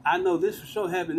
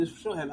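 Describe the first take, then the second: First: Said in the usual way. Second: "this for sure happened" said much softer, trailing away; fading out. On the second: Real, not acted. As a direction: let the repeat of "this for sure happened" sink to a near-murmur. Repeating it, trailing off.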